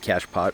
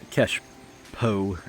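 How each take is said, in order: First: The final t is clearly pronounced. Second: The final t is left silent. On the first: The speaker calls it wrong. "I'm not" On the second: The speaker calls it right. "if you actually wanted to say it correctly"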